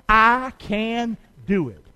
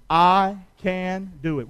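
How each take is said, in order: First: Slow, drawn-out I can do it; slower, stronger repeat. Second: Slow, deliberate I can do it; slow call-and-response. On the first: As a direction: draw the crowd into a firmer repeat. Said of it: "Would you say that again? Come on". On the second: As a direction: lead the crowd, word by word. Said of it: "Say that with me". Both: Shown as a demonstration.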